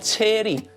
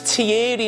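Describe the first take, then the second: First: The name is said like the English name Terry. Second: The name is said with its French pronunciation. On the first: The speaker calls it wrong. "not Terry" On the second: The speaker calls it right. "His name's Thierry"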